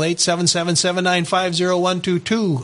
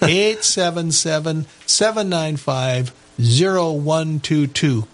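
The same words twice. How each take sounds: First: The number is said fast. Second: The number is said slowly.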